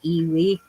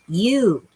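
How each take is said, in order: First: The word is said in two syllables, 'ee-wee'. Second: The word is said in one syllable, 'you'. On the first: The speaker calls it wrong. "if you sound it out and you are not a native speaker, it looks like iwi" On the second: The speaker calls it right. "but it's ewe"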